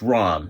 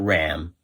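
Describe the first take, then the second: First: The vowel is an open 'ah' sound. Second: The vowel is a flat 'a' sound. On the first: The speaker calls it right. "it's Rom, not Ram" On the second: The speaker calls it wrong. "not Ram"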